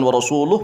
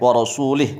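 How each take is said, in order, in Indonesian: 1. Vokal terakhir adalah bunyi u. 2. Vokal terakhir adalah bunyi i. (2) "Bil jarri, dengan membacanya jar"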